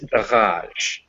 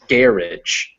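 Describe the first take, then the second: First: The stress is on the second syllable. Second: The stress is on the first syllable. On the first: This is the French and American way. "they stress the second syllable" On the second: This is the British way. "they put the stress on the first syllable"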